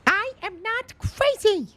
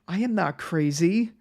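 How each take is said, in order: First: It is said in an Elmo voice. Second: It is said in his normal voice.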